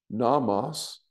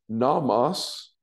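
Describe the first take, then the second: The two takes are said the same way.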